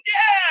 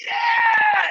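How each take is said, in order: First: Short, very high mock cheer; crowd cheer. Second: Very high, long-held yell; contestant's answering cheer. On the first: Crowd greeting the contestant, high mock cheer. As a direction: imitate a crowd yelling back. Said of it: "And the crowd went". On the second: Retold or imitated. Contestant yelling back to the crowd, long high whoop. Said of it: "And I went".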